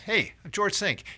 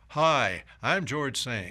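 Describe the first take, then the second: First: It is said in a relaxed, casual way. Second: It is said in a stiff, formal way.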